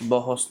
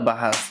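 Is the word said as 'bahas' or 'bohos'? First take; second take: bohos; bahas. First: The word is said as bohos with rounded 'o' vowels. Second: The word is said as bahas with open 'a' vowels. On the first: The speaker calls it wrong. "বহস না" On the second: The speaker calls it right. "শব্দটা বাহাস"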